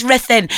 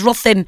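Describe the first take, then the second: First: Ruthin said "RITH-in", short first vowel; corrected Ruthin. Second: Ruthin said as spelt, with a "ruth" first syllable; mispronounced Ruthin. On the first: Host corrects the town name, Ruthin said as "Rith-in". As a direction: say Ruthin with short i or e, not "Ruth". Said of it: "but it's Ruthin". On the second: Host recalls misreading the town name, Ruthin said as spelt. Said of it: "I used to think it was Ruthin 'cause it's R U T H". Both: Shown as a demonstration.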